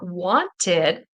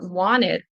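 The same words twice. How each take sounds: First: The T in the middle is clearly pronounced. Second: The T in the middle is dropped. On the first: "if you are listening for" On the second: "The T will kind of disappear"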